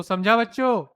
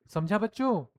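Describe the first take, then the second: First: Louder call to the class; raised voice. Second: Said in the usual way. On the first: Shown as a demonstration. Teacher raising the voice to check the class is listening. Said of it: "जब हम voice को थोड़ा raise करते हैं". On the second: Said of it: "फिर".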